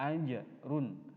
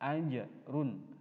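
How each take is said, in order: First: The j is released with a short echoing bounce. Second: The j is released with a short echoing bounce.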